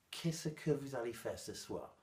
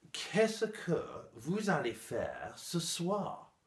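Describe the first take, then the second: First: Said in the usual way. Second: Slow, higher, over-articulated teacher's model question; laboriously careful classroom recitation; mock textbook French. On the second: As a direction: spell out each word like a formal French teacher. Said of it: "mon prof affreuse de français m'a dit".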